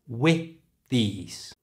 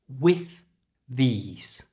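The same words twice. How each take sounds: First: The final th of with is dropped. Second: The final th of with is pronounced.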